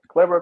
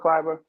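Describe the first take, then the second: First: The first vowel sounds like 'eh'. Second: The first vowel sounds like 'eye'. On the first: The name is read as it is spelled. "Where you get an I from with an E?" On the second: This is how the player calls himself. "they're giving him an I"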